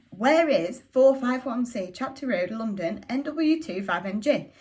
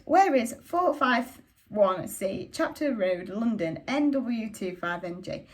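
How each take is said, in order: First: Slow, the address spelled out, a bit louder on where; slow insistent repeat; slow repeated asking. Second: Slow, each part spelled out; slow deliberate address; slow careful asking. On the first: Asks the shopkeeper again. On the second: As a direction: read out the address slowly and carefully. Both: Acted.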